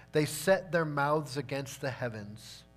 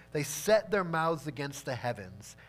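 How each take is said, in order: Both takes have the same delivery.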